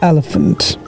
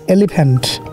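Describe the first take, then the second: First: It is said in an American accent. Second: It is said in a Bangladeshi accent. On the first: "I mean America" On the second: "Bangladesh bole elephant"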